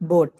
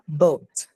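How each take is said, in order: First: The vowel is one steady, pure O sound. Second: The vowel glides from O toward oo. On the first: The speaker calls it wrong. "How do you usually say this word?" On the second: The speaker calls it right. "But what's the actual pronunciation?"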